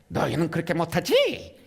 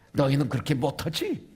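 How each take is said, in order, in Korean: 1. 목소리를 바꿔서 놀리듯 말합니다. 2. 평범하고 일상적인 목소리로 말합니다.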